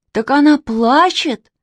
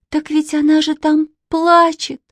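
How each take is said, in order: First: High, slow exclamation; stretched, raised-voice realization; astonished cry. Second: Put-on high, pitying little-girl voice; piteous high-pitched appeal; plaintive. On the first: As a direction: cry out as it dawns on you. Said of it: "закричал Костя Реутов". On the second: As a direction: plead on her behalf, voice held high. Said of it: "жалобно сказала Катя". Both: A narrator's reading.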